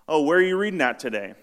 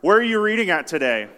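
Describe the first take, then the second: First: It is said at normal volume. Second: It is said louder.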